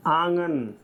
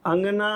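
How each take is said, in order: First: आंगन with long nasal आ up front; long opening vowel. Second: अंगना with short first vowel, long final आ; short opening vowel. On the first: Teacher contrasting two look-alike words, आंगन with long opening vowel. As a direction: open आंगन long, end on short गन. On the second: Teacher contrasting two look-alike words, अंगना with short opening vowel. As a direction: stretch the closing ना of अंगना. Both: Shown as a demonstration. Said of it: "अलग अलग है भैया".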